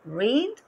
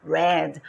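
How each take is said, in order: First: "Read" with a long ee, like "reed"; present-tense pronunciation. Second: "read" with a short e, like "red"; past-tense pronunciation. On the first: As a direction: say "Read" to rhyme with "need". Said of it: "a pronúncia é diferente". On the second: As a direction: say "read" to rhyme with "bed". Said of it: "quando eu falar no passado". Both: Shown as a demonstration.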